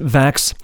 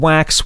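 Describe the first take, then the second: First: It is said with a German accent. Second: It is said with a plain English accent.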